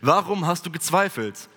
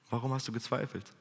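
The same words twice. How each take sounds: First: It sounds disappointed, angry and reproachful. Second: It sounds loving and gentle, as to a child.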